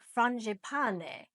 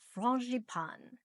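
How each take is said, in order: First: It is said with an Italian-sounding pronunciation. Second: It is said with a French pronunciation. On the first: "which sounds Italian" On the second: "that's the French pronunciation"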